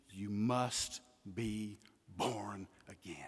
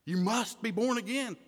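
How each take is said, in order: First: Slow hushed whisper, much softer. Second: Said in the usual way. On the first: Acted. Preacher quoting Jesus to Nicodemus, soft slow whisper. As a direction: breathe the words like a secret.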